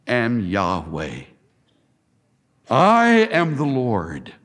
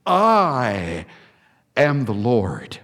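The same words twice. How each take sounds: First: Low, slow, weighty I AM; solemn emphasis. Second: Hushed low I... am the Lord; stress on am. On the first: Preacher underlining God's name, slow and heavy. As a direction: lean hard on am, slow and grave. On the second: Preacher repeating the verse for weight, low and hushed. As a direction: drop low and hang on am. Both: Shown as a demonstration. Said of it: "I've underlined that".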